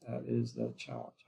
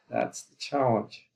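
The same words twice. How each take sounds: First: Soft, much lower restatement of "That is the challenge"; quiet low echo. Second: Slow and weighty, leaning on "challenge" with a falling end; slow emphatic statement. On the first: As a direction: lower and softer, "That is the challenge" dropped to a low, falling murmur. Repeats point as quiet echo. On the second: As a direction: land "That's the challenge" slowly as the key point. Lecturer stressing key point. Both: Acted.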